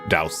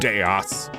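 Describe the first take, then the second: First: The name is one syllable, rhyming with house. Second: The name is said with two syllables, like Deos. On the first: It feels like too little effort for the name. "like a dowsing rod" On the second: It feels like too much effort for the name. "It's got to be like Deos"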